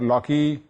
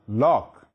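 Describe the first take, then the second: First: A final vowel is sounded after the K. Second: The word ends on the K sound. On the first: The speaker calls it wrong. "it's not pronounced as Locke or Locke" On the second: The speaker calls it right. "The E at the end is silent. So it's John Locke"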